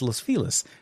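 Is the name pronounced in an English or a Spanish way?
English. The name is pronounced with English sounds. This is how locals and the news say it. "LA folks, and on the news... they always refer to it as"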